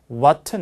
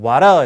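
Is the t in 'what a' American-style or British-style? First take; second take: British; American. First: The t is said bluntly, the British way. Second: The t is said the North American way. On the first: "t를 둔탁하게" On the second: "북미 영어라면 what a 이렇게 할 텐데"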